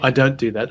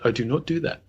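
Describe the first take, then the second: First: Do not is contracted into don't. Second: Do not is said as two full words. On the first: "not I don't do that"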